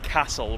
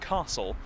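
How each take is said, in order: First: It is said in a Midlands accent. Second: It is said in an Oxford accent. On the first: A habit picked up from local speech. "saying things in the Midlands dialect" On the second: The speaker's original home way of speaking. "rather than"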